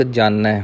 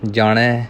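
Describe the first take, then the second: First: ਜਾਣੈ with a plain dental n, jaa-nai; tongue at the teeth for the n of ਜਾਣੈ. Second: ਜਾਣੈ with a curled-tongue n; retroflex n. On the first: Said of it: "ਇੱਥੇ ਨੰਨਾ ਹੈ". (ਜਾਣੈ ਨੂੰ ਨੰਨੇ ਨਾਲ) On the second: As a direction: curl the tongue back for the n of ਜਾਣੈ. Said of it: "ਨਾਣੇ ਦੇ ਨਾਲ ਹੋਵੇਗਾ". (ਜਾਣੈ ਨੂੰ ਨਾਣੇ ਨਾਲ) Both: Shown as a demonstration.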